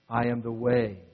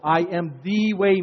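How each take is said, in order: First: The word 'the' is said without special emphasis. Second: The word 'the' is said with strong emphasis.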